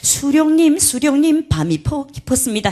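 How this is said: The words are pronounced in clear native Korean. This is how the lyric is meant to be said. The speaker calls it right. "해야 됩니다"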